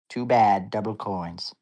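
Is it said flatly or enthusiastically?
flatly. It is said in a plain, flat way.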